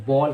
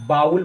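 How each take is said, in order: First: बॉल as one syllable with a long 'aw'; taught pronunciation. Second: बाउल with a gliding 'aa-ul' vowel; wrong pronunciation. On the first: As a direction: say बॉल without any 'ow' glide. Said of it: "बॉल कहना है". (बॉल, एक लंबे 'ऑ' स्वर के साथ) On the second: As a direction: say बाउल, rhyming with 'owl'. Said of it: "तो बाउल नहीं कहना है". (बाउल, 'आ-उ' की ध्वनि के साथ) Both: Shown as a demonstration.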